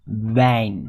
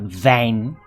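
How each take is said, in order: First: The word begins with a W-like sound. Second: The word begins with a V-like sound. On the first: The speaker calls it right. "A W sounds like a V? No. W" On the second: The speaker calls it wrong. "Not wijn"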